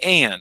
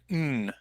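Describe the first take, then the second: First: The word is said in full with all sounds. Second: The word is reduced to a single nasal sound. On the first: "I don't say and" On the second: "I have reduced the sound to mm"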